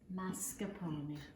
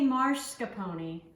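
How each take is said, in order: First: No R sound follows the first vowel. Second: An extra R sound follows the first vowel. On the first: The speaker calls it right. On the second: The speaker calls it wrong.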